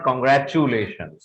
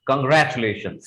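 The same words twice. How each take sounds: First: Congratulations said with a full "choo"; wrong pronunciation. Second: Congratulations said as "kun-GRATCH-lay-shuns"; correct pronunciation. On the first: Teacher showing what's wrong, mispronounced. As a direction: add "choo" before "lay" in congratulations. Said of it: "that's wrong". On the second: Teacher modelling the corrected word, properly pronounced. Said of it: "दो भागों में उसको तोड़ दीजिएगा". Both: Shown as a demonstration.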